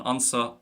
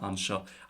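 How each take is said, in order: First: The second syllable starts with a sharp s sound. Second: The second syllable starts with a sh sound. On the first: The speaker uses a Munster dialect. "the son and the so is the same as just shin and sho" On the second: The speaker uses a non-Munster dialect. "the son and the so is the same as just shin and sho"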